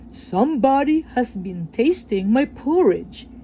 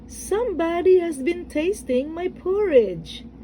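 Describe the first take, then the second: First: It is said in a great big, deep voice. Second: It is said in a middle-sized, medium voice.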